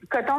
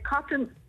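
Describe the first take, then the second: First: The word is pronounced with French sounds. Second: The word is pronounced with English sounds.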